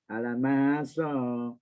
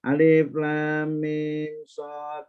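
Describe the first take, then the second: First: The first letters are blended into one word. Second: Each letter is said separately by its name. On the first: The speaker calls it wrong. "Jangan dibaca alamak Shad" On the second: The speaker calls it right.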